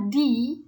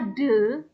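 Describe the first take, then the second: First: The vowel is a long 'ee' sound. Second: The vowel is a short 'uh' sound. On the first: "de dibaca di apabila mengikuti a vowel sound" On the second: "De itu dibaca de apabila diikut, mengikuti a consonant sound"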